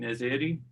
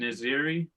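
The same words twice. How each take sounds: First: The name is said with a Persian pronunciation. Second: The name is said with an American pronunciation. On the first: This is how the name is supposed to be said. The speaker calls it right. "apparently it's supposed to be Naziri like that" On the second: This is how the speaker says his own name. The speaker calls it wrong. "I say I say it Naziri"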